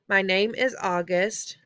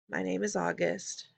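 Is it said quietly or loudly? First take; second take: loudly; quietly. First: It is said more loudly. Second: It is mumbled quietly.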